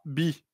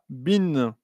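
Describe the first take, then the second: First: The syllable ends on the vowel, no n. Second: The syllable ends with an added n sound. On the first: The speaker calls it wrong. "on ne dira pas bi" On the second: The speaker calls it right. "on dira bin"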